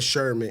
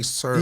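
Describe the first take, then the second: First: The name begins with an 'sh' sound. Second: The name begins with an 's' sound. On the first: The speaker calls it wrong. "you cannot call that man Sherman in his face" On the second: The speaker calls it right. "You have to say Sermon"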